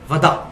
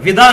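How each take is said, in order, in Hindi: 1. पहला स्वर 'a' की ध्वनि है। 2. पहला स्वर 'i' की ध्वनि है। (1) "ये वाओ पे जबर है" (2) "विदा नहीं लफ्ज होता"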